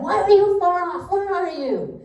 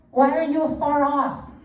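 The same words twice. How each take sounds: First: A high, loud cry of why and where; yelling at God. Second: Said in the usual way. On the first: Retold or imitated. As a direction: throw the question at God like a yell. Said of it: "yelling at him".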